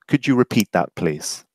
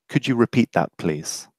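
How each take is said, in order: The two takes are said the same way.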